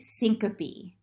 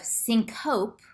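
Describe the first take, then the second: First: The final e is pronounced as a syllable. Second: The final e is silent. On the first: The speaker calls it right. "you pronounce the E" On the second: The speaker calls it wrong. "which is what you might think"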